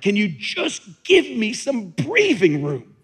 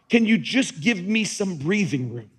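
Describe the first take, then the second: First: It is yelled loudly and forcefully. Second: It is said calmly, without yelling.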